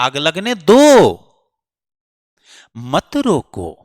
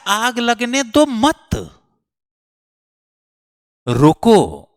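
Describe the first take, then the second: First: The pause comes before the word 'mat'. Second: The pause comes after the word 'mat'. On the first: Let the fire burn; don't stop it. "एकदम opposite sense है" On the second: Don't let the fire burn; stop it. "आग को रोकने के लिए कह रहा है"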